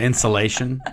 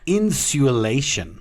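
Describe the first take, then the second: First: It is said in a standard American accent. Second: It is said with an English accent. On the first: This is how everyone else says it. The speaker calls it right. "Instead of insulation" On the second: This is how the teased person says it. The speaker calls it wrong. "it's insulation"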